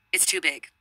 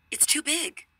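First: Said in the usual way. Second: Much higher, pushed repeat of "It's too big"; higher insistent repeat. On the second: Retold or imitated. Girl repeating to her friend who didn't hear, pitched high.

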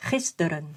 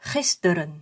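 Both takes have the same delivery.

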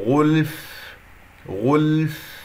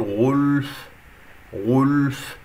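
First: غلف with a light, flowing ل and a clear breathy ف; correct demo. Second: غلف with the غ's ضمة dragged onto the ل; wrong rounded demo. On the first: Teacher modelling the correct غلف after the mistake. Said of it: "اللام يجري فيها الصوت". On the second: Teacher demonstrating the wrong rounding on غلف. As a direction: show the mistake: round the ل in غلف. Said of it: "سحبت ضمة الغين إلى اللام". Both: Shown as a demonstration.

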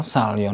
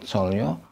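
First: "salyo" said "sahl-yaw", first vowel open ah; "salyo" with ah before the l. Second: "solyo" said "sawl-yaw", first vowel rounded o; "solyo" with o before the l; wrong O vowel. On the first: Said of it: "penultimate syllable with al doesn't follow". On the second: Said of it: "not solyo". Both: Shown as a demonstration.

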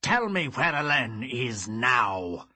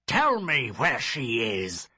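First: Loud, slow menacing demand; cold fury. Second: Loud insistent order; angry demand. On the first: Father demands, snarling. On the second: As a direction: repeat the order harder. Father repeats demand. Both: Acted.

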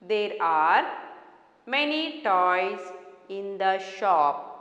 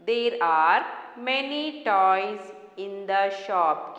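First: Said in the usual way. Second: Slow, word by word reading; slow dictation. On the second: Shown as a demonstration. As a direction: read it slowly for children to follow. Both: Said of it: "Keep your fingers".

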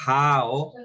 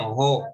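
First: "How" with a full ow diphthong; correct pronunciation. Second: "jo" as a short Spanish-style ho; students' mispronunciation. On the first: Shown as a demonstration. Teacher correcting students' reading of "How", correct pronunciation. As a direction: model "How" slowly, rhyming with now. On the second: Retold or imitated. Teacher imitating students who misread how as "jo", mispronounced. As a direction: imitate the mistaken "jo", with no w glide. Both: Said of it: "algunos todavía me pronuncian jo".

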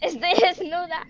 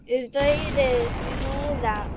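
First: Said in the usual way. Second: Stretched-out words, half speed; slow dictation. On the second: Real, not acted. Player typing "Estoy desnuda" in chat, dictating slowly.

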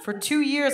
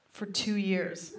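First: For two years punched higher, stress on two; emphatic repeat. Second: Slow, dropped and quiet: for two years; slowed, softer aside. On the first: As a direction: hit two hard in disbelief. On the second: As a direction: let for two years fall away, dragged out. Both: Acted. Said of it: "repeated for effect".

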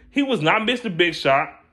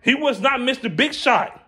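First: Said in the usual way. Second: "not" hit higher and harder in "He was not Mister Big Shot"; stress on not. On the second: Real, not acted. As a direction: lean on "not" and pitch it up. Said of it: "he wasn't Mister Big Shot".

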